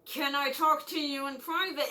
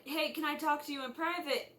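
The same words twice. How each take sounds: First: Mildly pressing, put-on urgency; insistent request. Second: Said in the usual way. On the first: Student needing the nurse alone, lightly acted insistence. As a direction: press the request a little harder.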